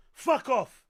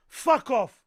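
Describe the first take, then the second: No difference in how they are said.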